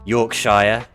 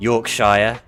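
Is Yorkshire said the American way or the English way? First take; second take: American; American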